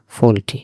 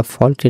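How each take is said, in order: First: ফল্টি with a close o, as "fole-tee"; correct pronunciation. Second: ফল্টি with an open aw, as "fawl-tee"; wrong pronunciation. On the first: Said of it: "এখানে উচ্চারণটা ফল্টি না". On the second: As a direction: say ফল্টি with the vowel opened to aw. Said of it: "উচ্চারণটা ফল্টি না". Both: Shown as a demonstration.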